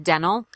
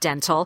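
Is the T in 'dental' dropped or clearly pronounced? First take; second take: dropped; pronounced. First: The T sound is dropped after the N. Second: The T sound is clearly pronounced after the N. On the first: The speaker calls it wrong. "You will hear various dialects in America say dental" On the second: The speaker calls it right. "instead of dental"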